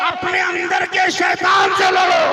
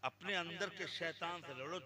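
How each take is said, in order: First: Booming high shouted sermon line; fiery preaching. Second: Said in the usual way. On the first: Acted. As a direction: thunder it at the crowd.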